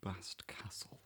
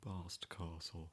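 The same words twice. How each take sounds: First: It is said in a northern English accent. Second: It is said in a posh southern accent. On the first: "It's more of a northern pronunciation" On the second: "it sounds quite posh"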